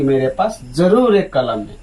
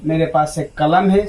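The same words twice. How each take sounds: First: जरूर said with weight; stress on जरूर. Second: Said in the usual way. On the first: Shown as a demonstration. Teacher stresses जरूर for the class. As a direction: lean on जरूर. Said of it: "यहाँ पर आप बोल रहे हो कि". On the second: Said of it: "सिर्फ आप ये बोल रहे हो".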